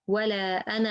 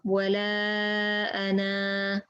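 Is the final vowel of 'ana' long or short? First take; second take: short; long. First: The final vowel is short, running into the next word. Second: The final vowel is held for two beats. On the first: The phrase continues without a stop. "if I connect, I drop it" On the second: The reciter stops after this word. "But if I stop, ... Two beats"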